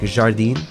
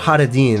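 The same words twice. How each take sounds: First: The first consonant is a soft French zh sound. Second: The first consonant is a Spanish-style throaty sound. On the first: The speaker calls it right. "You guys actually pronounce the J, right? Like Jacques" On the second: The speaker calls it wrong. "It's not Jardín, right? I realize like Jardín is a Spanish thing"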